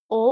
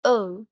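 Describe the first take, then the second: First: Short, pure "ओ"; Japanese vowel O. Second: Long, gliding English "ओ"; English letter O. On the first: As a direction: say "ओ" as one steady vowel without a glide. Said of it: "इन्हें कुछ इस तरह से पढ़ा जाता है". ("ओ" का छोटा, शुद्ध जापानी स्वर) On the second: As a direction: say "ओ" like the English letter name, sliding to oo. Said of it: "English vowels की तरह नहीं बोलेंगे". ("ओ" को अंग्रेज़ी अक्षर O जैसा लंबा) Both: Shown as a demonstration.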